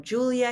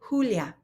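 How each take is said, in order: First: The name is said with English sounds. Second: The name is said with Spanish sounds. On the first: The speaker calls it wrong. "no Julia here" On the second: The speaker calls it right. "this is Julia"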